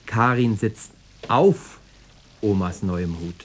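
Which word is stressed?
auf. The stress falls on the word auf. She is on the hat, not under it. "Weil drunter nicht viel Platz ist"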